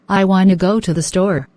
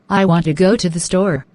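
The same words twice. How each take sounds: First: The words are run together and reduced. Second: Each word is pronounced fully and separately. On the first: This is how people normally speak. "as is typically spoken, it will sound much more like" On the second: This is how it is written. "people growing up in the U S are taught to write"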